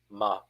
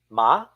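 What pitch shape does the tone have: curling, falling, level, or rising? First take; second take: level; rising. First: The pitch stays level with no tone. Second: The pitch starts low and rises upward. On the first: "Even with no tone to feather, it lives" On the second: "Start from the bottom, then go up"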